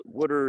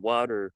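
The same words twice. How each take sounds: First: "water" as East Coast WOOD-er; East Coast accent. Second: "water" with an open first vowel, WAW-ter; standard pronunciation. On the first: Comparing both takes, East Coast accent. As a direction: give "water" the East Coast short vowel. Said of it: "I can see, like". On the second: Comparing both takes, standard "water". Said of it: "water and water, right?". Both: Shown as a demonstration.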